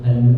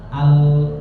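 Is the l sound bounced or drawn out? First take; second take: bounced; drawn out. First: The l sound bounces off abruptly. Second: The l sound is drawn out longer. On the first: The speaker calls it wrong. "jangan mantul ya, jangan al al" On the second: The speaker calls it right. "Tapi panjangkan suaranya"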